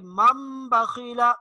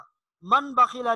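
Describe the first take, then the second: First: The nasal before the b is an m. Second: The nasal before the b is an n. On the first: The speaker calls it right. "बल्कि मम बखीला, मीम के साथ तब्दील" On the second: The speaker calls it wrong. "मन बखीला नहीं पढ़ेंगे"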